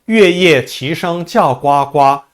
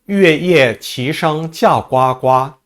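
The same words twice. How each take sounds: Both takes have the same delivery.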